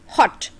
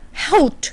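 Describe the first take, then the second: First: The vowel is the English short o sound. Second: The vowel is a Hindi-style o or au sound. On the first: The speaker calls it right. "I would say O, hot" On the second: The speaker calls it wrong. "I would not say uh, hout"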